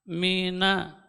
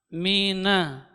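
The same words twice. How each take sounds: Both takes have the same delivery.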